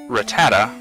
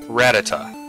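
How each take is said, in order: First: The stress is not on the first syllable. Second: The stress is on the first syllable. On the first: This is the speaker's own way of saying it. "I always say Rattata" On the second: This is how everyone else says it. "rat in the name. That being the, the emphasis there"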